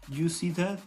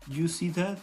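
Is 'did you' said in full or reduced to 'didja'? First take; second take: reduced; reduced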